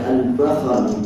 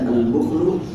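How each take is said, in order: First: The first vowel of the word is a. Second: The first vowel of the word is u. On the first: "dan ada al-bakhal" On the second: "ada bacaan al-bukhlu"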